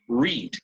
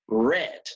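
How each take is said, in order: First: The vowel is long, like in 'need'. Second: The vowel is short, like in 'bed'. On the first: It is the base or present form. "If it is the base form" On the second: It is the past simple form. "Just like the color red"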